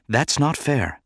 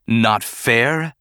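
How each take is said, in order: First: Higher, mild reproach; gentle objection. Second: Indignant echo. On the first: Padme objecting to Bail's derision, mild reproach. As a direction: object without raising your volume. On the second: Senator echoing Padme's objection, indignant. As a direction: challenge with a rising end. Organa throws her words back. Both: A narrator's reading.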